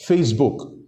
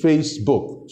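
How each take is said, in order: First: Said in the usual way. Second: "Facebook" split into two distinct beats, Face-book; syllable by syllable. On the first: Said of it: "that's two syllables". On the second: Shown as a demonstration. Host showing listeners a two-syllable brand name, syllable by syllable. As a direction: count out both syllables of "Facebook". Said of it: "two syllables".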